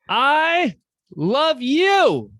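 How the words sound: It is said loudly and excitedly to a crowd.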